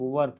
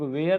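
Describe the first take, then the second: First: It sounds like 'wur' with a short central vowel. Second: It sounds like 'wair' with an 'ay' glide. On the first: The speaker calls it right. "बल्कि इसको हम लोग वर पढ़ते हैं" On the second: The speaker calls it wrong. "इसको हम लोग वेयर नहीं पढ़ते हैं"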